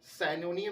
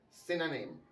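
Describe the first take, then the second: First: The first vowel sounds like eye. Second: The first vowel sounds like ih. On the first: The speaker calls it wrong. "साइनोनियम नहीं" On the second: The speaker calls it right. "जो सही pronunciation है"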